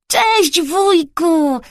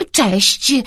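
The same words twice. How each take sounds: First: Put-on high, drawn-out child's hail; called-out greeting. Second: Unraised, absent-minded hello; distracted greeting. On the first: Boy greeting uncle in the park, calling out. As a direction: boyish call from a distance. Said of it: "krzyknął Bartuś". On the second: Uncle interrupted while chatting, distracted greeting. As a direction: greet back, barely attending. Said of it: "z trudem powrócił do rzeczywistości". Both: A narrator's reading.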